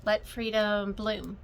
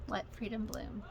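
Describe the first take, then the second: First: Reading the title. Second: Softer repeat. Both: Shown as a demonstration. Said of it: "this is by Shepherd's Bush".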